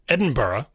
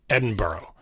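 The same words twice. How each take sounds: First: The ending is two syllables, burra. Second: The ending sounds like the word borough. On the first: "where it's B-U-H-R-U-H, Burra" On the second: "like a borough of New York City"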